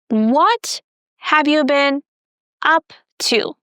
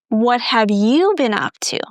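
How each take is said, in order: First: The words what and up are stressed. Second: The word you is stressed. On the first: It is an ordinary first-time question. "we are going to stress the word what and up" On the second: The same question is being returned to the asker. "I'm stressing you"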